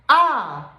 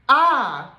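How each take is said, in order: Both takes have the same delivery.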